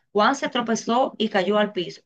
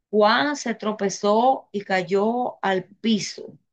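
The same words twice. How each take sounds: First: Said in the usual way. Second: Very slow, drawn-out example sentence; slow dictation. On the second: Shown as a demonstration. Teacher giving the class an example sentence to follow, slow dictation. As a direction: spell it out slowly, word by word.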